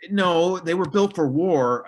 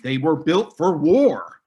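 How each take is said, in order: First: Slow, each word pressed, louder; deliberate, weighty correction; emphatic insistence. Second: Slow and louder, every word stressed; deliberate, weighty correction; emphatic insistence. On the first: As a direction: lean hard on built for war. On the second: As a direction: lay down the fact firmly. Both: Real, not acted. Insisting forts were military.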